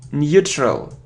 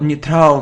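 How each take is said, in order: First: The first syllable sounds like new. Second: The first syllable does not sound like new. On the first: The speaker calls it right. "It's new, neutral" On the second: The speaker calls it wrong. "It isn't neutral"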